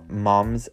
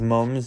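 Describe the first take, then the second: First: It is said with an American-style vowel. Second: It is said with a Northern English vowel.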